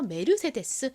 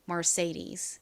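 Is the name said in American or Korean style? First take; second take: Korean; American. First: It is said syllable by syllable, Korean style. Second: It is said with an American r-colored vowel. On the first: "메르세데스 이렇게 읽습니다" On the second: "이것은 미국식 발음이고요"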